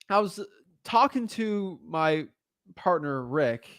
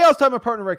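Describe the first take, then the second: First: The voice sounds hesitant and unsure. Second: The voice sounds firm and confident.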